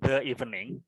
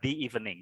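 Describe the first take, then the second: First: 'The' has a short weak 'uh' vowel. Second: 'The' has a long 'ee' vowel. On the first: The speaker calls it wrong. "bukan the evening" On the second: The speaker calls it right. "tapi dibaca the evening"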